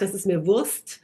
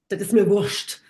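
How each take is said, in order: First: The phrase is said plainly, without extra emphasis. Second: The phrase is said with strong, forceful emphasis. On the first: "then it's not das ist mir Wurst" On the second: "if you're really wanting to put emphasis on it"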